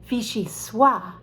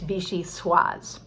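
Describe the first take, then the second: First: The final S sound is dropped. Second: The final S sound is pronounced. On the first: The speaker calls it wrong. "people are afraid to pronounce the S on... you might hear people say" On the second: The speaker calls it right. "they should pronounce the S... but it's vichyssoise"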